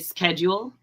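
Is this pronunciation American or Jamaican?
American. It is said with an American pronunciation. "in America we say"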